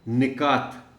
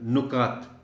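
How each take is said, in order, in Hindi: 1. पहला स्वर 'i' है। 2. पहला स्वर 'u' है।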